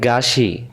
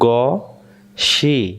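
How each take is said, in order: First: The first vowel is an open, unrounded a. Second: The first vowel is said with rounded lips. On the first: The speaker calls it wrong. "গইন জবর গা হয়ে যাচ্ছে" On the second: The speaker calls it right. "মুখটা গোল হবে"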